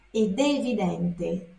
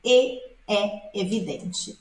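First: Ed è evidente with a clear d joining the vowels; Italian ed. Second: E é evidente said with no d, vowels run together; without the d. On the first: Teacher contrasting ed è with e é for students. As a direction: link ed to è with the d. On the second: Teacher showing students the form without d. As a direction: drop the d, e é evidente. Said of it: "Esse D aqui existe". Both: Shown as a demonstration.

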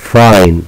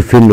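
First: فاين with "eye", like "fine"; long i name sound. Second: فين with a short "i", like "fin"; short i, wrong reading. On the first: Teacher correcting the word to long i. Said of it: "وإنما فاين". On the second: Teacher showing what we don't say, short i. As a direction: say فين without any "eye" glide. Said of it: "لا نقول فين وإنما فاين". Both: Shown as a demonstration.

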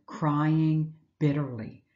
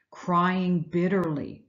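First: Said in the usual way. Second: "crying bitterly" drawn out slowly for weight; heavy, slowed echo of the phrase; slow, weighted repeat. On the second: Shown as a demonstration.

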